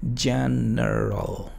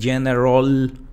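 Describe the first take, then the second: First: The last syllable has a reduced vowel. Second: The last syllable has a full vowel. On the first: The speaker calls it right. "Es solamente R, L" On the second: The speaker calls it wrong. "no digo general ni general"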